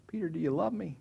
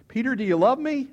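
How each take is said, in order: First: Mildly raised, unforced question; gentle question. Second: High, loud, pressing question; insistent questioning. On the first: Jesus looking across the fire at Peter, gentle. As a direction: ask it simply, without pushing. Jesus asks first time. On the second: Jesus asking Peter a second time before the others, insistent. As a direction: press him before everyone, louder. Jesus asks again, publicly. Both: Acted.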